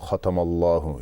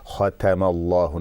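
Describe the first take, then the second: First: The first vowel sounds heavy and rounded. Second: The first vowel sounds flat and open. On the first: The speaker calls it wrong. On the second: The speaker calls it right. "the other sounds they come out flat and the the fatha sound is pronounced"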